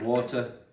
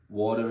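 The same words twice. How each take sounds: First: It is said in a non-American accent. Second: It is said in an American accent.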